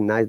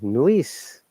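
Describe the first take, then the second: First: The vowel is a plain 'ai' glide. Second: The vowel is an 'oi' glide. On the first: "They don't say nice" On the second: "they say noise"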